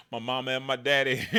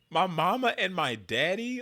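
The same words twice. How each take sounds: First: Lightly mocked folksy Oklahoma twang; a hint of a folksy Oklahoma drawl. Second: Slow, high hammed-up Oklahoma twang, mama stretched; mock Oklahoma drawl. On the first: Mocking the candidate's Oklahoma talk, lightly drawled. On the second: Mocking the candidate's fake Oklahoma talk, exaggerated drawl. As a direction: overdo the folksy Oklahoma drawl, slowly. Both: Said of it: "don't talk like that".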